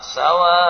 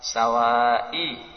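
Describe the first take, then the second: First: The word ends on a silent final consonant. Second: The word ends with a faint, brief final vowel. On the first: "Kita baca 6" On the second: "Terdengar dari jarak dekat. Nah. Itu arom"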